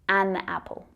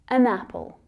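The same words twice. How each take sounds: First: The article is a full 'an' sound. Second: The article is a short, weak 'un' sound. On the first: The speaker calls it wrong. "not an" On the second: The speaker calls it right. "And we say an"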